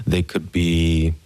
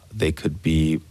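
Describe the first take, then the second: No difference in how they are said.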